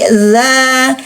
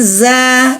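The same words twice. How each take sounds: First: The consonant is a soft th-like dhal sound. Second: The consonant is a plain buzzing z sound. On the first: The speaker calls it right. "bukan za tapi za" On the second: The speaker calls it wrong. "Jangan za"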